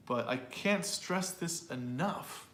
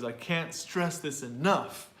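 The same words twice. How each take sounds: First: Slow with "can't" rising; stress on can't. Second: Slow, "can't", "stress" and "enough" each hit; stress on content words. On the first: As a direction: stretch out "can't" and lift it. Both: Shown as a demonstration. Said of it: "those three words are content words".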